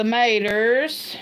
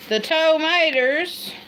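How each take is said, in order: First: "tomatoes" shortened to MAY-ders; country-style "tomatoes" as 'maters; clipped dialect form. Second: "tomatoes" as TOE-may-ders, slow; higher, drawn-out "tomatoes", toe-maters; overdone full form. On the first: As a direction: drop the first syllable of "tomatoes": 'maters. Says local word, then full word. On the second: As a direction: put a long TOE on the front of "tomatoes". Restores the dropped first syllable. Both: Shown as a demonstration.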